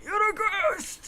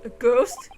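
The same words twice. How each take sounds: First: High, drawn-out melodramatic alarm; slow, high cry at seeing a phantom; frightened accusation. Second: Puzzled echo. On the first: Prisoner accuses lawyer of being ghost. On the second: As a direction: echo it back in startled disbelief. Lawyer echoes the accusation. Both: Acted.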